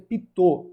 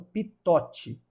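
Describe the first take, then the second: First: The word ends without a sounded final T. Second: The word ends with a sounded final T. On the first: The speaker calls it right. "a pronúncia é Pitot" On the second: The speaker calls it wrong. "não Pitote"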